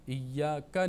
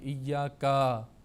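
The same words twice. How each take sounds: First: The final vowel is short and quick. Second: The final vowel is drawn out long. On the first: The speaker calls it right. "बहुत जल्दी के साथ पढ़ना चाहिए" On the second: The speaker calls it wrong. "इसको भी कई लोग आ, मद की तरह लंबा करते हैं"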